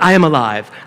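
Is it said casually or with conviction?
casually. It is said casually, without special conviction.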